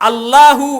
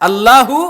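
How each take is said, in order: No difference in how they are said.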